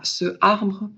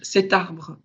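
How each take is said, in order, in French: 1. Aucun son t ne vient avant arbre. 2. Un son t fait la liaison avec arbre. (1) "et pas ce arbre" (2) "le mot cet que je vais utiliser pour dire cet arbre"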